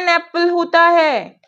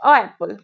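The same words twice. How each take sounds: First: "An apple" said slowly and higher, each word stretched; correct form. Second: "a apple" said with a plain "a" before "apple"; teacher tests the class by saying "a apple"; wrong on purpose. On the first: Teacher to students, slow clear correct "An apple". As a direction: lay out "An apple" slowly for the class. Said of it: "और दीदी इसे a apple पढ़ रही है". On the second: Teacher to students, deliberately wrong "a apple". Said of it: "क्या मैंने सही बोला है?". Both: Shown as a demonstration.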